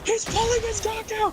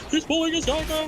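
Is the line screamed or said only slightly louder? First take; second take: screamed; slightly louder. First: The line is screamed at full volume. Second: The line is said only slightly louder.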